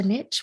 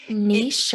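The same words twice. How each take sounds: First: Niche said to rhyme with "pitch"; niche as "nitch". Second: Niche said French-style, "neesh". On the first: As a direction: say niche with a short i and tch. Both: Shown as a demonstration. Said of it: "whatever you call it".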